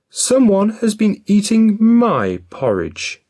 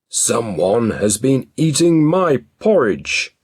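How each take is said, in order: First: It is said in a middle-sized voice. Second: It is said in a great big voice.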